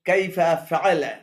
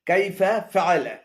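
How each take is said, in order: The two takes are said the same way.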